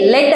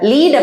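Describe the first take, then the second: First: The vowel is a short 'e' sound. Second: The vowel is a long 'ee' sound. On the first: It means a metal. "லெட் அப்படின்னா இது ஒரு உலோகத்தை குறிக்கும்" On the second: It means to guide. "லீட் அப்படின்னா வழி நடத்தி செல்றது"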